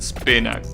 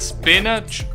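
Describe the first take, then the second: First: The word ends without a 'ch' sound. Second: The word ends with a 'ch' sound. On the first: The speaker calls it wrong. "That will sound weird" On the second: The speaker calls it right. "I assume that is the first one, right? Spinach with, you know, the the ch sound"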